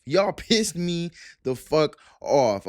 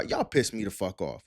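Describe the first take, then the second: First: Slow, emphatic "pissed", breaking into a laugh; real annoyance. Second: Said in the usual way. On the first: Real, not acted. Vlogger ranting at new Crawford fans, slow and annoyed. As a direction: lean on "pissed" as the anger boils over. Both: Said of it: "I'm getting pissed off now".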